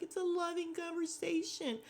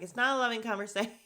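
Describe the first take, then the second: First: High-pitched mock-sincere imitation; phony sweetness. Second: Louder, higher, quick retort breaking up at the end; mock indignant contradiction. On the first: Mocking Jasmine as she smooths things over, phony sweetness. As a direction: put on a fake, sugary high voice. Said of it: "with her phony ass". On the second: Retelling Bria contradicting Jasmine, mock indignant. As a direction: snap back fast, stretching out the last word. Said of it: "And Bria's like".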